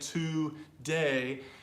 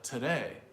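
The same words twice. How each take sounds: First: The first vowel is a full 'oo' sound. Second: The first vowel is a short, reduced 'uh' sound. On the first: The speaker calls it wrong. "how you would slowly break it down" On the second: The speaker calls it right. "that first syllable changes"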